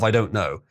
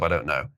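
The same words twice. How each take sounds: First: Said in the usual way. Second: Deadpan low. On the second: Acted. Deadpan repeat of the aside.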